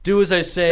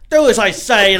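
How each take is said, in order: First: It is said in the speaker's normal accent. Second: It is said in a put-on Australian accent.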